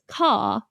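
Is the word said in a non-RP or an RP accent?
RP. It is said in an RP accent. The speaker calls it right. "in R P, it's car"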